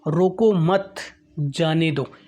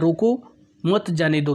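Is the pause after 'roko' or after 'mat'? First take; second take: after mat; after roko. First: There is a pause right after 'mat'. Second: There is a pause right after 'roko'.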